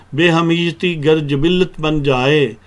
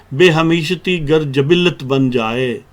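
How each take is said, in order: No difference in how they are said.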